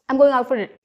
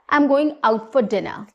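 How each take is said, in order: First: The words are rushed and run together unclearly. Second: Every word is spoken clearly and unhurriedly. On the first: The speaker calls it wrong. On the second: The speaker calls it right.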